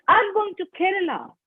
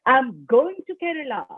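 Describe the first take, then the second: First: "Kerala" stressed, not Mumbai; "Kerala" gets the stress, high. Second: "going" stressed, not coming; "going" gets the weight. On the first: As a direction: land on the word "Kerala". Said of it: "not Mumbai, but Kerala". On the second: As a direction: push the word "going". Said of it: "not coming, but going". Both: Shown as a demonstration.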